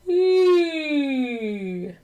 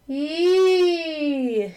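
First: It is placed back, like a yawn. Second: It is said through the nose.

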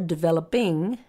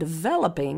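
First: The stress is on the ending ing. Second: The stress is on the syllable vel. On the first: "I was stressing ing to make a point that you can add the ing ending" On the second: "you still stress the vel"

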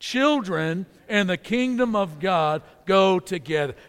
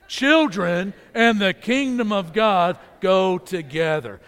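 First: It is said in a plain, calm way. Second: It is said loudly with lots of energy.

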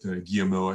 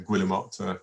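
First: It is pronounced the French way. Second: It is pronounced like the English seabird name. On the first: "but Guillemot, I think, in French" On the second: "like a Guillemot seabird"

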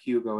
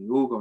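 First: The name is said with an English pronunciation. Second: The name is said with a Spanish pronunciation. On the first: This is how others would say the name. The speaker calls it wrong. "not Hugo" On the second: This is how the name is really pronounced. The speaker calls it right. "It was pronounced differently"

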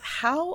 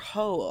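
First: The vowel rhymes with 'cow'. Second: The vowel rhymes with 'go'.

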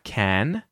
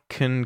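First: The vowel is a full, open a sound. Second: The vowel is reduced to a weak schwa. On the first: "If I say it on its own, you'll hear the vowel sound a" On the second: "it actually gets reduced and you'll hear instead, the vowel sound schwa"

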